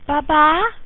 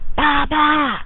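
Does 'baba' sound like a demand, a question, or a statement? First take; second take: question; demand. First: It is said with a questioning, rising tune. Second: It is said insistently, like an urgent demand. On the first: Where is my bottle? "where is my bottle?" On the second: I want it now. "I want it now"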